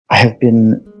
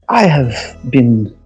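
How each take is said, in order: First: It is said with the native accent showing. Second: It is said in the put-on character accent.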